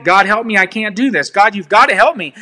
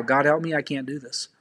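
First: Said in the usual way. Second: Soft, dropping prayer, fading to almost nothing; a hushed plea trailing off; quiet prayer. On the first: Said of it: "And how do you do that?". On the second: Shown as a demonstration. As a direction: pray it low and small, giving up. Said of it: "this is how".

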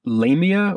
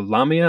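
First: Lamia said as LAY-mee-uh; "Lamia" rhyming its first syllable with "day"; first pronunciation. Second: Lamia said as LAH-mee-uh; "Lamia" starting like "llama"; alternative pronunciation. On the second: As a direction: say "Lamia" with an open AH in the first syllable. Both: Shown as a demonstration. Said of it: "not really sure how to prone".

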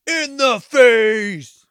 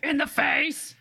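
First: High, slow, loud gleeful shriek; shrieked quote. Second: High gleeful echo; echoed shriek. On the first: Friend repeats the kill line in a gleeful shriek. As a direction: shriek the movie line with glee. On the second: Second friend echoes the kill line, high and gleeful. Echoing the quote. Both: Pretend.

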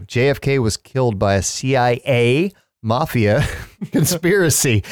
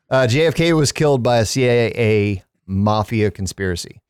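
First: Breaking into laughter on conspiracy; laughing flub. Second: Said in the usual way. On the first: Real, not acted. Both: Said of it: "I can't even say it now".

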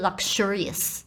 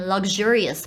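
First: Luxurious with a voiceless "k-sh"; wrong luxurious. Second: Luxurious with a voiced "g-zh"; native-speaker form. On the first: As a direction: say luxurious as "luk-shurious". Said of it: "不是". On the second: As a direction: say luxurious as "lug-zhurious". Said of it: "真正的母语人士会念". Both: Shown as a demonstration.

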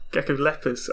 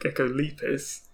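First: "geckolepis" with a short e, gecko-LEP-iss; co-host's pronunciation. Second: "geckolepis" with a long ee, gecko-LEE-piss; own habitual pronunciation. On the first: Retold or imitated. Co-host echoing the other's version, "geckolepis" as gecko-LEP-iss. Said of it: "you pronounce it gecko". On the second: Shown as a demonstration. Co-host admitting an old habit, "geckolepis" as gecko-LEE-piss. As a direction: say "geckolepis" with lep drawn to "leep". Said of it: "I'd always pronounced it".

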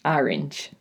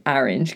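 First: New England vowel in Orange, said like ARR-inj; New England accent. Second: Orange again with the New England ARR-inj vowel; New England accent. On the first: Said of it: "That's how I say orange". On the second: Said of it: "'cause of my New England accent". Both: Shown as a demonstration.

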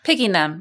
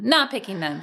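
First: Said in the usual way. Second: "not" leaned on with a falling tune; "not" stressed, dropping pitch. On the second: Shown as a demonstration. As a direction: hit the word "not" to set it against "Picking".

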